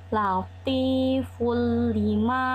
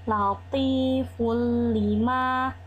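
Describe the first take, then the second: The two takes are said the same way.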